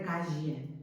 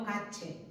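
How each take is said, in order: First: "calle" keeping the LL free of any CH; calle without CH. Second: "cache", calle said with a hard CH; "cache", the LL fully turned into CH. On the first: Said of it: "en lugar de calle". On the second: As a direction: say "cache" as KA-cheh. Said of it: "como si fuera una che". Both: Shown as a demonstration.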